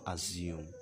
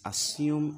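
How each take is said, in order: First: The middle consonant is a buzzing z sound. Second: The middle consonant is a hissing s sound. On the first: The speaker calls it wrong. "and not assume" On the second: The speaker calls it right. "S, as you have in sin, as you have in sick. S, it is assume"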